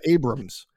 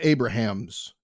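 First: The name is said with two syllables. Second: The name is said with three syllables. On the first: "Or is it Abrams?" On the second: "It looks like Abrahams from the spelling"

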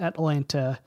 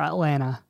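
First: The second t sound is clearly pronounced. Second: The second t sound is dropped.

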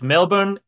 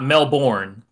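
First: It is said the way Australians say it. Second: It is said the way non-Australians say it. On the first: The speaker calls it right. "it's Melbourne" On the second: The speaker calls it wrong. "and not Melbourne"

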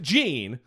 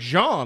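First: The name is said with an English pronunciation. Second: The name is said with a French pronunciation. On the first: The person has adapted the name to local speech. "maybe they're living here and they pronounce it Jean" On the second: The name keeps its original French form. "maybe it's like Jean, like Jean-Luc Picard"

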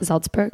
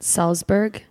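First: The word begins with a z sound. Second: The word begins with an s sound. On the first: The speaker calls it right. "An S at the beginning of a syllable... Is a Z sound" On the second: The speaker calls it wrong. "Not Salzburg? No"

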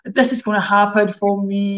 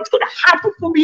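First: It is said flat, with a low voice. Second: It is said with excited, high energy.

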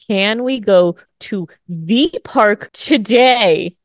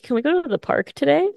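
First: The question is said slowly, with careful enunciation. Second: The question is said at a normal pace.

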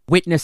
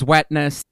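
First: The first vowel sounds like 'ih'. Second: The first vowel sounds like 'eh'. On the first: "Anything that is an ih sound" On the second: "Witness is wetness"

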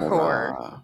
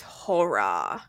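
First: The word is said flatly without drama. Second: The word is drawn out with dramatic flair.

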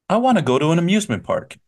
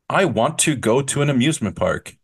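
First: The words 'want to' are reduced to 'wanna'. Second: The words 'want to' are fully pronounced. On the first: The speaker calls it right. "No, we say, you know what? ... Wanna" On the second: The speaker calls it wrong. "We rarely say want to"

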